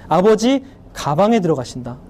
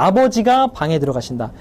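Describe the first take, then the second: First: The break comes before the syllable ga. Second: The break comes after the syllable ga. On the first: Father is going into the bag. "가방에 들어가는 퍼포먼스를 벌이고 있어" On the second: Father is going into the room. "아버지가 방에 들어가신다고 배웠는데"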